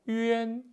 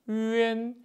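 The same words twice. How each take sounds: Both takes have the same delivery.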